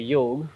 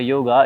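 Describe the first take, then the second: First: The word ends with a consonant sound. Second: The word ends with a vowel sound. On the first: This is the original Eastern way of saying it. The speaker calls it right. "it's a yog" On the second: This is the Western way of saying it. The speaker calls it wrong. "it's not a yoga"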